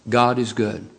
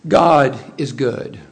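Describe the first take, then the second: First: Said in the usual way. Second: God is good drawn out slow, God held long; proclaimed slowly from the pulpit; slow emphatic. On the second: Shown as a demonstration. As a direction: lean on each word of God is good.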